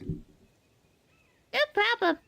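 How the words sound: A put-on voice close to an existing character. The speaker calls it wrong. "that's too close to Luca"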